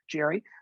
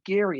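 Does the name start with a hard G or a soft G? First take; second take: soft G; hard G. First: The name starts with a soft G sound. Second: The name starts with a hard G sound. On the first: This is the common way most people say it. "I just go with soft G" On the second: This is the original pronunciation of the name. "It's pronounced the hard G"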